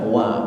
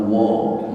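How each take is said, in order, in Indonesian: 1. Vokalnya adalah bunyi a terbuka. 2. Vokalnya adalah bunyi o bulat. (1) "dibaca wa" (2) "bukan wo"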